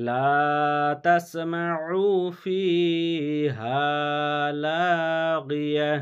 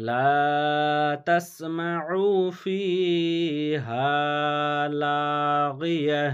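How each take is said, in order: The two takes are said the same way.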